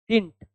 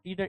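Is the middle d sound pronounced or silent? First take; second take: silent; pronounced. First: The middle d sound is silent. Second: The middle d sound is clearly pronounced. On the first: The speaker calls it right. "it's didn't. ड त्यातला काय आहे? Silent आहे" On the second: The speaker calls it wrong. "it's not didn't"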